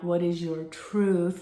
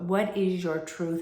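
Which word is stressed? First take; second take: truth; your. First: The stress is on the word truth. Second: The stress is on the word your.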